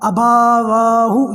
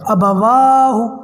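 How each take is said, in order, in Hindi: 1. दूसरे अक्षर में लंबा स्वर है। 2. दूसरे अक्षर में छोटा स्वर है। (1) "ये नहीं करना" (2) "अलिफ और बा दोनों पे सिंपल ज़बर है, इसलिए इनकी आवाज़ लंबी नहीं होगी"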